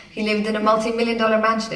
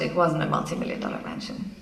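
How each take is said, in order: First: Quick, lifted assertion; fast news claim, pitched up; confident claim. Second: Low, soft correction; hushed walk-back of a claim; deadpan retraction. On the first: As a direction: rattle off the claim as established fact. Recites a claim, then its retraction. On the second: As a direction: take it back quietly, falling away. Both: Acted.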